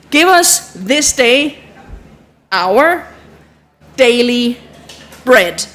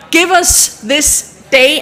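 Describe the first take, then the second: First: Slow, pausing prayer line; slow prayer recital. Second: Drawn-out prayer words; slow it right down; slow recital. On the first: Teacher walking the group through the line, slow. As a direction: say it word by word. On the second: Teacher showing the sign for day, slow. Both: Shown as a demonstration. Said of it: "recites while signing".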